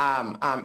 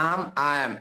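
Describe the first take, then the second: Both takes have the same delivery.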